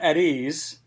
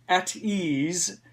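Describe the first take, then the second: First: The t in 'at' sounds like a d. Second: The t in 'at' is a crisp t. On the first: The speaker calls it wrong. "it's not at ease, like at with a D" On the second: The speaker calls it right. "It's at at ease"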